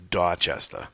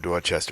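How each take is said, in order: First: It is said in a local Boston accent. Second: It is said in a plain, general accent.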